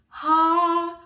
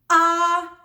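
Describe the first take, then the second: First: The vowel starts with a breathy puff of air. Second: The vowel starts with a harsh throat attack. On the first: "that's our breathy onset" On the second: "glottal onset. This is a harsh attack from the throat"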